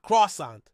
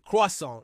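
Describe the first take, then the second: First: It uses an anglicized pronunciation. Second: It keeps the original French-like pronunciation. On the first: The speaker calls it wrong. "not croissant" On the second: The speaker calls it right. "we often keep their original pronunciation"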